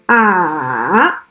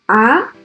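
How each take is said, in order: First: The pitch dips down, then rises a little. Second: The pitch rises from low to high. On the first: "The third tone is a falling, rising tone" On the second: "The second tone is a rising tone"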